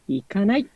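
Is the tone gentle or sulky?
gentle. It sounds soft and kind, like a caring parent. A parent is gently telling someone not to go. The speaker calls it right. "優しいお母さん風がいいかなと思います"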